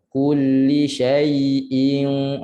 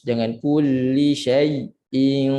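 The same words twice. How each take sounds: First: "syai'in" slow and unbroken; smooth slow "syai'in"; flowing recitation. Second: "syai'in" with the voice cut off; wrong broken "syai'in"; broken recitation. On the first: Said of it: "tak putus suara ya". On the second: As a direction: show "syai'in" with a break in the sound. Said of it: "itu putus". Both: Shown as a demonstration.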